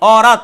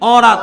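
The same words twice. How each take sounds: Both takes have the same delivery.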